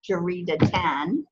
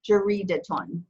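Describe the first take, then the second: First: The word ends with an a sound before n. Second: The word ends with an u sound before n. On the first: The noun is the object of a verb. "it could be jaridatan, um, like he read the a newspaper" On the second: The noun stands on its own. "in this case, jaridaton"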